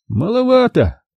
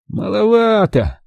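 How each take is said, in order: First: Higher, considering drawl; doubtful musing. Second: Slow, higher, dismissive; grimacing. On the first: Ukhov frowning over the diver's offer, unimpressed. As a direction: weigh it up, unimpressed. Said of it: "наморщив лоб, что-то прикидывал Ухов". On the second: Ukhov wincing again at the diver's offer, slow and dismissive. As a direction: drag it out with a wince. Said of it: "опять поморщился Ухов". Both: A narrator's reading.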